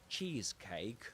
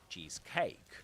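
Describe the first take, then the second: First: The stress falls on the first part. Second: The stress falls on the second part. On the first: It is said as a compound noun. The speaker calls it right. "instead of saying cheesecake" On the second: It is said as a phrase. The speaker calls it wrong. "they say cheesecake"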